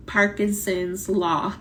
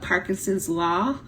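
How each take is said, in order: First: Parkinson's said slowly, drawn out for emphasis; slow repeat of Parkinson's Law. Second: Said in the usual way. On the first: Shown as a demonstration.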